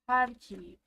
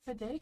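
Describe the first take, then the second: First: The name begins with a P sound. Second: The name begins with an F sound. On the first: The speaker calls it right. "Because P H usually makes an F sound" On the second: The speaker calls it wrong. "Sorry if I'm saying that wrong"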